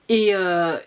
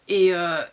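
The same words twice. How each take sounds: The two takes are said the same way.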